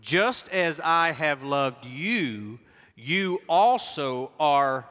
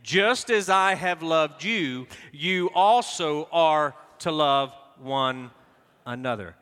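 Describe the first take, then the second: First: Slow, deliberate reading; read aloud together. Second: Slow, fuller, louder reading; read aloud together again. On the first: Pastor leading the congregation in slow reading. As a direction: pace it word by word. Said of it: "Read it with me if you would". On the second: Pastor repeating the verse with the congregation, slow and firm. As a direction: lead them firmly through it. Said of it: "let's try it again". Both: Shown as a demonstration.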